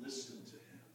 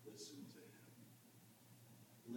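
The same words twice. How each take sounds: First: Low, soft voiced repeat; soft command. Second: Slow, hushed whisper; whispered command. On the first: Preacher repeats heaven's command to the disciples, softly spoken. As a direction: say it quietly and low, with voice. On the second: Acted. Preacher gives heaven's postscript to the disciples, whispered. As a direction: whisper it slowly, as a solemn postscript.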